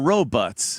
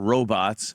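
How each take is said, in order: First: It is said in a dated 1950s way. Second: It is said in today's usual way.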